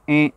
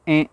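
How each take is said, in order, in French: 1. Le son sort par le nez. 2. Le son sort par le nez.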